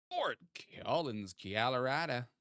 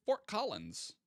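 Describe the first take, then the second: First: Fort Collins Colorado in a lightly put-on mystery accent, vowels bent; unknown odd accent. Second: Said in the usual way. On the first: Streamer hamming a place name in a mock accent. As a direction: drawl Colorado as kiah-lo-rah-duh in a half-joking unplaced accent. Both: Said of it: "I don't know what that accent was".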